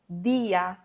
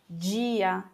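First: The d sounds plain, with no hiss. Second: The d sounds hissy, like a j sound. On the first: "Isso não vai acontecer em espanhol" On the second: "meio chiado, né?"

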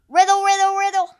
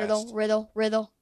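First: It is said at a much louder volume. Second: It is said quickly at a quieter volume. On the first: "saying it louder doesn't make it better"

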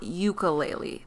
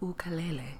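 First: The word is said the American way. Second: The word is said the non-American way. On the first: The speaker calls it wrong. "That's the American butchering of the word" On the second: The speaker calls it right. "which is the proper pronunciation"

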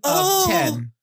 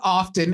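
First: It is said as two separate words. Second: It is said as one word. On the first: It means a quantity of ten. The speaker calls it wrong. "I read it as two separate words, of and 10" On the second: It means frequently. The speaker calls it right. "It's often, you're correct"

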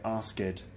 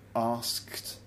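First: The ending adds an extra id syllable. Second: The ending is a plain t sound, one syllable. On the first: The speaker calls it wrong. "you might say asked" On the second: The speaker calls it right. "I would say"

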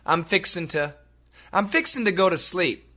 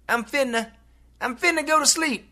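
First: It is fast but keeps 'fixing to'. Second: It is faster, with 'fixing to' squeezed to 'finna'. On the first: "if we say that really fast, it sounds like" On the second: "they say it even faster. And it sounds like"

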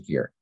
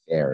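First: The vowel sounds like the one in 'fear'. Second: The vowel sounds like the one in 'fair'. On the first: This is the speaker's own pronunciation. "so I say fear" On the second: This is how the listeners pronounce it. "You guys say fair or something like that"

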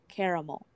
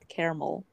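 First: The word is said with three syllables. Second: The word is said with two syllables. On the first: The speaker calls it right. "It's spelled C-A-R-A-M-E-L" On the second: The speaker calls it wrong. "Not caramel"

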